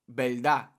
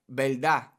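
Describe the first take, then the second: The two takes are said the same way.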